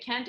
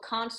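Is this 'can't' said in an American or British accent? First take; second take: American; British. First: It is said with an American accent. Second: It is said with a British accent. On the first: "can't is American accent" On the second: "can't is good British"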